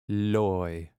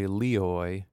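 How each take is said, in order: First: The I is a quick glide into the vowel. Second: The I is a full, emphasized vowel. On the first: The speaker calls it right. "you just say Loi" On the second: The speaker calls it wrong. "you don't say Leoi, you don't give it that much emphasis"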